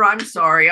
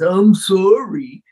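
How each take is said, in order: First: It sounds insincere and repetitive. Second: It sounds sincere and heartfelt.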